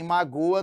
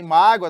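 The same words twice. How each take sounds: First: Verb "magoa", ma-GÔ-a; "magoa" with weight on GÔ; stress on GO. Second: Noun "mágoa" punched loud, MÁ-gwa; "mágoa" with weight on MÁ; stress on MÁ. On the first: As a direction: stress the middle syllable of "magoa". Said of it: "o verbo". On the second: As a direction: stress the first syllable of "mágoa". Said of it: "nós temos o substantivo". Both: Shown as a demonstration.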